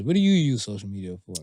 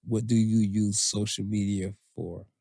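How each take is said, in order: First: Quicker, conversational asking with weight on "you"; curious. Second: Measured, low read of a listener's question. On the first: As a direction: stress "you" as a genuinely curious question. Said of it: "I'm actually curious". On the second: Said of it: "last one comes from Nat". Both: Real, not acted.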